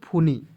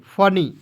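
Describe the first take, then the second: First: The first vowel is a long 'oo' sound. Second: The first vowel is a short 'uh' sound. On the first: The speaker calls it wrong. "नहीं पढ़ना है इस तरह।" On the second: The speaker calls it right. "फूनी नहीं पढ़ेंगे"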